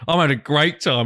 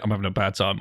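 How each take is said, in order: First: Higher, mildly cheerful imitation; upbeat retold quote. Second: Mildly glum, lowered imitation; downbeat retold reply. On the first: Friend having fun in the garden, mildly upbeat retelling. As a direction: quote a mate who's loving it. George's glee against speaker's unease. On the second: Near panic, confiding in a friend outside, understated downbeat reply. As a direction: answer a cheerful mate with understated unease.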